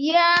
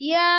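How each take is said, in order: No difference in how they are said.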